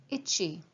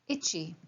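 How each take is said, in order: No difference in how they are said.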